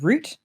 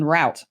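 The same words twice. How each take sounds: First: It is said with a British pronunciation. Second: It is said with a non-British pronunciation.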